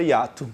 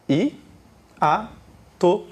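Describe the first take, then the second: First: Said in the usual way. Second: "I, a, to" as three isolated syllables; syllable division. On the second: Shown as a demonstration. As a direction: leave a clear pause after each of "I, a, to". ("I, a, to" separado, sílaba por sílaba) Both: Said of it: "Divida as sílabas da palavra hiato".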